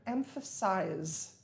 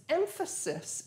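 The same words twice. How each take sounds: First: "emphasize" ending in "-size" with a z sound; verb pronunciation. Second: "emphasis" ending in a short, unstressed "-sis"; noun pronunciation. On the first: Teacher showing learners the verb "emphasize", verb pronunciation. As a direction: say "emphasize" as EM-fuh-size, long i at the end. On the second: Teacher showing learners the noun "emphasis", noun pronunciation. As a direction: say "emphasis" with a hissed final s, EM-fuh-sis. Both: Shown as a demonstration. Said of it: "notice it's spelled and pronounced differently".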